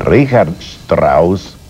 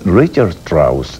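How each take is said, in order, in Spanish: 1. El nombre se pronuncia a la alemana. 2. El nombre se pronuncia a la americana. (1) "en vez de Richard Strauss, porque es auténticamente vienés" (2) "dicen Richard Strauss, es más elegante"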